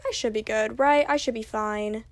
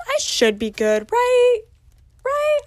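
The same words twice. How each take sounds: First: Said in the usual way. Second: Jumping high on "right"; mock worry. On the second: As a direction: squeak "right" as a nervous question. Mock worry, seeking reassurance.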